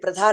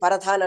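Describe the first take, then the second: First: The p and r are said together. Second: A vowel is put between the p and r. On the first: "ప్రధాన్ అనడానికి" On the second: "Punjab వాడు ... పరధాన్ అంటాడో"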